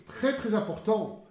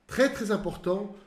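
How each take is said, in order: Both takes have the same delivery.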